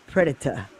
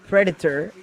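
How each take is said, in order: First: The word is said with a British pronunciation. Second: The word is said with an American pronunciation. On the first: "Predator is British" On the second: "'cause Predator is American"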